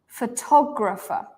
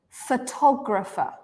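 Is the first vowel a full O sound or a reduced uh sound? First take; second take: reduced uh; reduced uh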